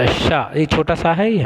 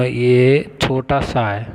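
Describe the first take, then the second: First: Said in the usual way. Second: "ये छोटा सा है" said very slowly, each word drawn out for the class; slow pointing out. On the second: Shown as a demonstration. Teacher showing students the small sa letter, very slowly.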